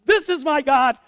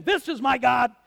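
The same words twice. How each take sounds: First: Much louder, higher, triumphant; shouted proclamation. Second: Loud certain proclamation; Elijah proclaiming. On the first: Elijah shouting at the storm, sure it's God. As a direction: cry it out to the sky. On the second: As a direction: announce it like he's sure. Elijah mistakes noise for God. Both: Acted.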